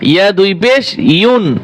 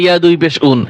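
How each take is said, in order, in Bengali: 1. শেষ অক্ষরটি একটি 'y' ধ্বনি দিয়ে শুরু হয়। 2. শেষ অক্ষরটি একটি সাধারণ স্বরধ্বনি দিয়ে শুরু হয়।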